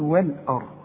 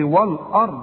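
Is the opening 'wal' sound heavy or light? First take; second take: light; heavy. First: The opening waw and lam sound light and thin. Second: The opening waw and lam sound heavy and full. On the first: The speaker calls it right. "هنقول والارض" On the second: The speaker calls it wrong. "ما اوعى تقول لي والارض"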